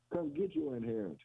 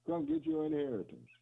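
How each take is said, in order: First: Said in the usual way. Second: Much higher, ringing call. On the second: Retold or imitated. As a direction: sing it out high like an invitation. Quoting the Father's call.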